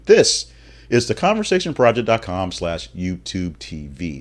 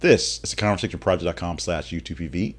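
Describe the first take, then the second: First: The address is said at a slow pace. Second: The address is said at a quick pace. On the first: The speaker calls it right. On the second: The speaker calls it wrong.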